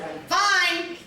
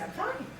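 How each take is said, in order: First: High, firm retort; testy, raised-pitch assurance; insistent. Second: Soft, rising brush-off; breezy little assurance; light reassurance. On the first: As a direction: push back hard on FINE. Irritated at being asked twice. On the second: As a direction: say it lightly and quietly, lifting at the end. Brushing off the first question. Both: Retold or imitated.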